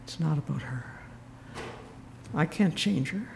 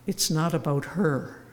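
First: Softer, reflective restatement; quiet. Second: Gentle, calm retold advice; kindly. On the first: Shown as a demonstration. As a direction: let the lesson sink in quietly. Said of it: "And it was a lesson". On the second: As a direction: say it kindly, like a wise old priest. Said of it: "looked at me very kindly".

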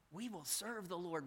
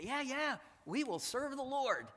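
First: Said in the usual way. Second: High, loud, eager mock promise; a breezy, overeager yes from the people; eager crowd reply. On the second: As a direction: play the crowd promising too quickly. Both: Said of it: "They respond and say".

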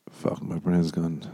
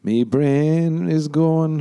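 First: Said in the usual way. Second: High, slow, drawn-out wail; playful slow crooning whine; silly lament. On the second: Pretend. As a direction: stretch every word out high.

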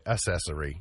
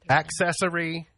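First: ACCESSORY said as uh-SESS-ory; mispronounced accessory. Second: Said in the usual way. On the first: Shown as a demonstration. Host mimicking others' mistake, ACCESSORY said as uh-SESS-ory. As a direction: drop the K sound from ACCESSORY. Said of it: "people say accessory". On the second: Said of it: "it's accessory".

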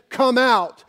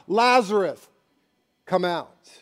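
First: Loud, higher summons; booming come out; commanding call. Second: Said in the usual way. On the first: Retold or imitated. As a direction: call the whole cemetery out. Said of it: "just said". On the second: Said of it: "So he specifies".

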